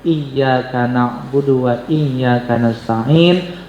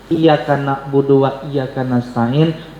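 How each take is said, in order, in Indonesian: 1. Bunyi y-nya dibaca ganda dan ditahan lebih lama. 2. Bunyi y-nya pendek dan tunggal. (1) "harus pakai tasydid" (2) "Salah tasydid, salah arti"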